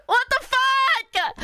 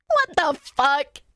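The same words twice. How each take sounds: First: High, drawn-out "What the fuck"; whining outrage. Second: Slow "What the fuck", held back; stunned disbelief. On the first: Pretend. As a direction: wail it slowly in mock despair. Outburst repeating the same words. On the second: Real, not acted. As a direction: drag out "What the fuck" in usual pitch. Disbelief at being short in Korea.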